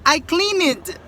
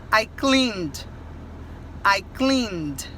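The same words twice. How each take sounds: First: CLEANED as "clee-ned", pitched higher; mock the error, "cleaned" in two syllables; common learner mistake. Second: CLEANED as one syllable, "cleend"; correct pronunciation. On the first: Teacher imitating many students, cleaned mispronounced with extra syllable. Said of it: "Muita gente fala". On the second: Teacher correcting the error, cleaned in one syllable with final d. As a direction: end "cleaned" on a d alone. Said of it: "o D só". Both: Shown as a demonstration.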